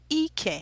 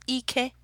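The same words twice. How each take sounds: First: Both syllables are on a low tone. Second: Both syllables are on a high tone. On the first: It means buttocks. "I believe it's low" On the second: It means strength or power. "the I is a high tone, the E is a high tone"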